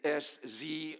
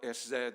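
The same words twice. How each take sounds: First: The letters are said the American way. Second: The letters are said the British way. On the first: "the American" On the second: "the British pronunciation"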